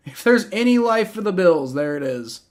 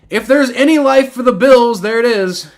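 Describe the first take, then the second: First: Subdued repeat. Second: Loud, high outburst after a touchdown; excited exclamation. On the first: Streamer concedes life for the Bills, voice winding down. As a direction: let the exclamation wind down. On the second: Streamer sees life for the Bills, loud exclamation. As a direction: proclaim it at raised pitch and volume. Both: Real, not acted.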